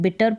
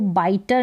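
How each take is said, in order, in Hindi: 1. पहला स्वर 'bit' जैसा सुनाई देता है। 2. पहला स्वर 'bite' जैसा सुनाई देता है। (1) "बिटर पढ़ना है" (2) "इसको बाइटर नहीं पढ़ना है"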